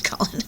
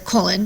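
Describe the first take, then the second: First: Colon with a short open vowel, KAH-lun; mistaken pronunciation. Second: Colon with a long OH, KOH-lun; corrected pronunciation. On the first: Teacher disowning her slip, mistaken pronunciation of colon. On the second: Teacher correcting her own slip, corrected pronunciation of colon. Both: Real, not acted. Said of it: "sorry, not colon".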